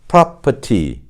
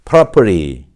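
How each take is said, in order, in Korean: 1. r은 묵음이고 t는 또렷하게 나요. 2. r 소리가 나고 t는 탄설음으로 나요. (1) "그렇다면 영국식은요? ... property 이렇게 되겠죠" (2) "미국식으로 발음하면 어떻게 될까요?"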